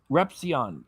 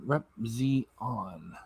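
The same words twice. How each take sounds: First: Said in the usual way. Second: Rep Z on, slow and soft, each part spelt out; syllable by syllable. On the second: Shown as a demonstration. Quietly spelling out Rep Z on as a viewer taught it. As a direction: sound out Rep Z on carefully, one piece at a time. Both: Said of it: "you're telling me how to say it".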